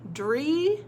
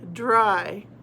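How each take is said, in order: First: The word ends with an 'ee' sound. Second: The word ends with an 'eye' sound. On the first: "dr, e, dree" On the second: "or dr, I, dry? Dry. Good"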